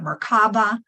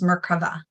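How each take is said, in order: First: It is said the common English way. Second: It is said the Hebrew way. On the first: "Some people call it Merkaba" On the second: "I like to pronounce it the Hebrew name"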